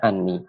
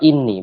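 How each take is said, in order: First: The word begins with an 'a' vowel. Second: The word begins with an 'i' vowel. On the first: The speaker calls it wrong. "bukan anni" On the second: The speaker calls it right. "kita baca kasrah untuk hamzah innanya. Kita baca inni"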